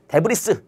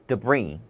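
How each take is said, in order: First: The word ends with an audible s sound. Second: The word ends without any s sound. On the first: The speaker calls it wrong. "데브리스 이게 아니라" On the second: The speaker calls it right. "S가 소리가 나지 않는 경우도 있다"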